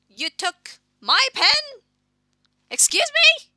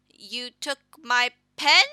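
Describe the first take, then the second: First: High, loud, slow outraged cry; outraged shriek. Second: Loud shocked question. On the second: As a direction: demand it in shock. Shocked at the pen theft. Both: Acted.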